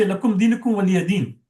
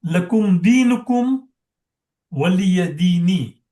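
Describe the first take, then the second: First: "din" closed on the n, no final vowel; pause with sakin. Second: "dini" with a long final i, recited slowly; kasra on the final noon. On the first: Teacher showing how we always pause, "din" ending on sakin n. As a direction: recite briskly, stopping on "din" with a silent-voweled n. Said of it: "we always pause with sakin". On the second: Teacher showing the class the last ayat, slow with "dini" fully voweled. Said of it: "noon has a kasra". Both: Shown as a demonstration.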